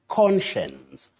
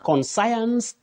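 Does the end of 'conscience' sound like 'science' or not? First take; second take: not like science; like science. First: The word does not end sounding like 'science'. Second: The word ends sounding like 'science'. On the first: The speaker calls it right. "You say conscience" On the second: The speaker calls it wrong. "we should not say conscience ... Conscience, no"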